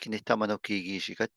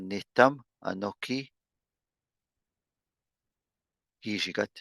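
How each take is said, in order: First: It is said without a glottal stop before anokii. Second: It is said with a glottal stop before anokii.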